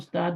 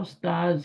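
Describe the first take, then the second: First: The word ends with a 'd' sound. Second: The word ends with a 'z' sound. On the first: The speaker calls it wrong. "हम उस्ताद बोलते हैं, हम गलत बोलते हैं" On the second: The speaker calls it right. "होता उस्ताज ही है"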